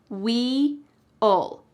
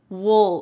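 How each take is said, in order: First: The word is said fully with two clear sounds. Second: The word is reduced, sounding like 'wool'. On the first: "This is the clear pronunciation" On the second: "we often reduce this and it just sounds like wool"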